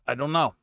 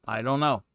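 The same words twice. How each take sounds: The two takes are said the same way.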